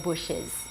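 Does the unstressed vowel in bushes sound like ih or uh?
ih. The unstressed vowel sounds closer to ih.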